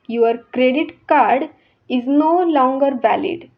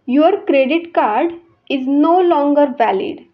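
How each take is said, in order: No difference in how they are said.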